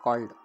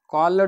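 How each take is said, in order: First: The final d sound is short and light. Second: The final d sound is heavy and drawn out. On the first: The speaker calls it right. "हा ड सुद्धा आपल्याला थोडक्यात म्हणायचं आहे" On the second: The speaker calls it wrong. "कॉल्ड असा उच्चार नाही होत मित्रांनो"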